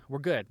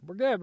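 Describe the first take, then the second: First: Calming sigh. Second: Said in the usual way. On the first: Real, not acted. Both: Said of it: "I'm gonna calm down a little bit".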